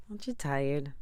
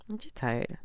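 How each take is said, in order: First: Said in the usual way. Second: Pitched well up, pleading; emphatic higher repeat. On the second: Real, not acted. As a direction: push the question up high to shake them. Asks listeners, then repeats.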